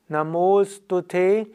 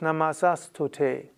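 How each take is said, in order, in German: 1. Das s wird zu o, und die Wörter verschmelzen. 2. Das s bleibt vor dem nächsten Wort erhalten. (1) "Namostute ist viel schöner" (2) "Das klingt aber komisch"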